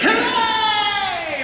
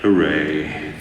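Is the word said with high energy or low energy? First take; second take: high energy; low energy. First: The word is said loudly with lots of energy. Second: The word is said flatly with little energy. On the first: It matches a character jumping up and down. The speaker calls it right. "it's definitely gonna be like" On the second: It does not match a character jumping up and down. The speaker calls it wrong. "It's not gonna be like"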